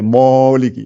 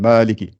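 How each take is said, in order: First: The first syllable is heavy and inflated. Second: The first syllable is light, not inflated. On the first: The speaker calls it wrong. "Si on devait la gonfler, ça fait Moliki" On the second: The speaker calls it right. "c'est pas Moliki, donc on gonfle pas"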